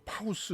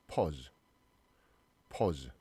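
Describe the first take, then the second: First: "파우스" as pa-u-seu; "파우스" sounded out like pow-s; misread pause. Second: "pause" as pawz; "pause" with one aw sound, not ow. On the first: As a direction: say pause wrongly as "파우스", with an ow vowel. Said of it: "막 이렇게 읽는 친구도". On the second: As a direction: say "pause" with a rounded aw vowel. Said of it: "이 어 발음이 나요". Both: Shown as a demonstration.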